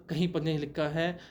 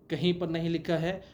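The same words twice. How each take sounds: The two takes are said the same way.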